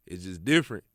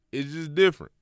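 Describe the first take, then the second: First: Said in the usual way. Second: "different" higher and louder; excited emphasis. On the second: Real, not acted. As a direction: hype it up: It's just different.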